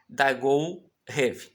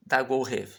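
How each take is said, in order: First: Dagou Rev drawn out very slowly, syllable by syllable; slow demo reading. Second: Said in the usual way. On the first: Shown as a demonstration. Teacher slowly reading Dagou Rev to students. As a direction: stretch Dagou Rev out for learners. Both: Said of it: "Então vai ser assim".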